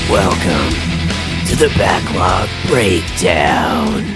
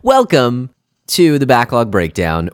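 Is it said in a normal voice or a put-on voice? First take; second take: put-on; normal. First: It is said in a Resident Evil announcer voice. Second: It is said in his normal speaking voice.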